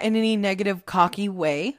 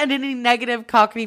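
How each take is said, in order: First: Said in the usual way. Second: "cockney" slipped in for cocky, with an extra middle syllable, "cock-ity"; tongue-tripped "cockney" as "cock-ity". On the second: Real, not acted. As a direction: stumble into "cockney", said as "cockity". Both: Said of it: "Why the fuck did I say that?".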